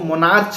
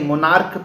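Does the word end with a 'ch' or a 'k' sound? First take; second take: ch; k. First: The word ends with a 'ch' sound. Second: The word ends with a 'k' sound. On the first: The speaker calls it wrong. "इसको मोनार्च नहीं" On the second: The speaker calls it right. "मोनार्क पढ़ते हैं क की तरह"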